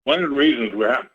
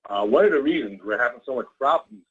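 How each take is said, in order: First: Talking with food in mouth; words blurred by a mouthful; mouth full. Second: Said in the usual way. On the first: Real, not acted. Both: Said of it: "sorry, I have something in my mouth".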